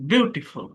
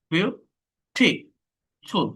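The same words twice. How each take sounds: First: Said in the usual way. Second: beautiful in three slow, separate beats; split into syllables. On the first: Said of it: "ইউ এর উপর আমাকে চাপ দিতে হচ্ছে". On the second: Shown as a demonstration. Teacher showing three syllables, beautiful slowly split. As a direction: leave long gaps between the syllables of beautiful. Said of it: "তিনটা syllable আছে".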